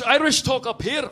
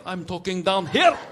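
First: Scottish accent lifted in pitch; talking up high. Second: Scottish voice dropped into the gut; talking down low. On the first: Scot showing where the Irish talk, higher voice. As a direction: show a voice placed up high. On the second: Scot showing where he talks, lower voice. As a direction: sink the voice down, Scottish accent. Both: Shown as a demonstration.

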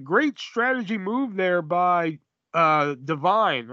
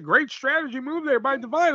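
First: Slow, drawn-out mock commentator call; lightly imitated play-by-play man. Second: Mock commentator. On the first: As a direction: drag it out like a bland TV announcer. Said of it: "And it was like". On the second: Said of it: "Mike Tenay was like".

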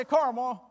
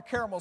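First: "Carmel" as CAR-mel; "Carmel" with no middle vowel; two-syllable Carmel. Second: "caramel" said as the sweet; caramel, dessert pronunciation. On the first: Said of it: "I say Carmel for this point". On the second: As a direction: say "caramel" as in a caramel sundae. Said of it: "I say it a little different". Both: Shown as a demonstration.

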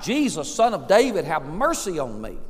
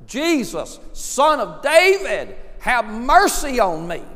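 First: Mildly raised voice, falling away; crying out. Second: High, loud, drawn-out plea; crying out louder. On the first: Blind beggar to Jesus passing by, crying out. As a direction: call out, not yet at full force. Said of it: "he cried out". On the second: Blind beggar to Jesus despite the crowd, crying out louder. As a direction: cry it out over the crowd. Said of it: "he even cried out louder". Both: Retold or imitated.

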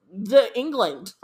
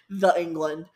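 First: "the England" said slowly, weight on "England"; slow drawn-out England. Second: "The England" with the weight on "The"; stress on "The". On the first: Reading the phrase "the England", slow and amused on "England". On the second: Repeating "The England" to mock it, punching "The". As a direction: lean on "The", England tossed off. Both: Pretend.

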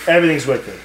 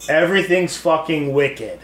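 First: Imitating a Boston girl's accent; lightly mocked Boston accent on wicked. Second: Said in the usual way. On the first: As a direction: say it like a Boston local. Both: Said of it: "the Boston accent".

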